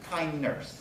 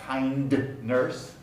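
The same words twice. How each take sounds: First: The d at the end of kind is dropped. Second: The d at the end of kind is pronounced. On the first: The speaker calls it right. "just kind nurse" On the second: The speaker calls it wrong. "It's not kind nurse"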